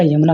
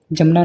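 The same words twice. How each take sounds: First: यमुना with a gliding "ya" at the start; initial y sound. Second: जमुना with a hard "ja" at the start; initial j sound. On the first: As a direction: begin यमुना with y instead of j. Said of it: "right आपका यमुना होता है". (यमुना को "य" से बोलें) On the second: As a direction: begin जमुना with j, as in the common mistake. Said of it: "जमुना नहीं, right आपका यमुना". (जमुना को "ज" से बोलें) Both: Shown as a demonstration.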